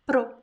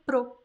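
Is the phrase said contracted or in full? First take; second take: contracted; contracted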